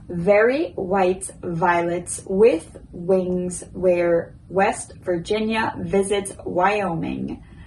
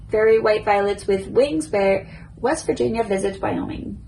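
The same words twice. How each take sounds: First: It is said at a slow pace. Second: It is said at a normal pace. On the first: "First slow" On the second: "a little bit quicker now, just normal speed"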